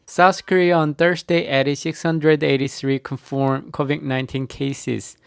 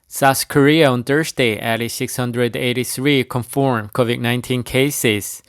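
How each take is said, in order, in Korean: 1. 목소리가 높고 목에 위치해 있어요. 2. 목소리가 낮고 가슴에서 울려요. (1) "이 높은 쪽 한국어나 일본어의 발성 시스템을 최대한 써서" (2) "배 쪽에서 소리를 끌어올려 이 가슴을 울리게 해서"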